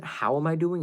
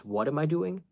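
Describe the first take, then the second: First: "How" picked out for contrast; stress on How. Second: "What" picked out against the expected word; stress on What. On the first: Retelling her complaint to a messaging guy, stress on "How". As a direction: lean on "How" as the question that was expected. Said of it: "the first thing you say isn't". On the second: Retelling her complaint to a messaging guy, stress on "What". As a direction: lean on "What" as the question he really asked. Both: Retold or imitated.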